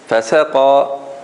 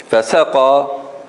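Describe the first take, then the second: Both takes have the same delivery.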